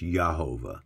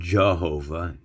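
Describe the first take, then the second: First: The name begins with a Y sound. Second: The name begins with a J sound. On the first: The speaker calls it right. "The J is silent. It's Yahovah" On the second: The speaker calls it wrong. "It's not Jehovah"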